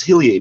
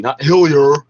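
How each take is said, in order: First: Hillier said the French way, ending in "ee-ay"; French pronunciation. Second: Hillier said the English way, "HILL-yer", louder; mock anglicized pronunciation. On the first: Caller correcting how the general's name is said, French pronunciation. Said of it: "pretending to speak with a French". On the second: Caller mocking those who misread the French name, anglicized pronunciation. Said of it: "you don't recognize his French name". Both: Shown as a demonstration.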